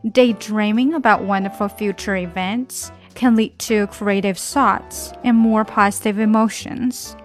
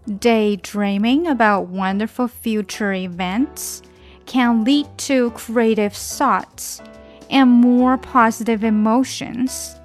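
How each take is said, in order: First: The sentence is read at a faster pace. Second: The sentence is read at a slower pace.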